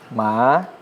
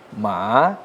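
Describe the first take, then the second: First: The pitch rises from middle to high. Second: The pitch dips low, then rises.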